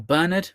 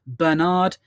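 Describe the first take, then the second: First: Bernard as BER-nud, stressed up front; first-syllable stress. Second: Bernard as ber-NARD, stressed on the end; second-syllable stress. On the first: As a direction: say Bernard with a reduced, unstressed "nud" ending. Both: Shown as a demonstration. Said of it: "however you want to pronounce it".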